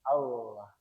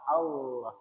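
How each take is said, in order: No difference in how they are said.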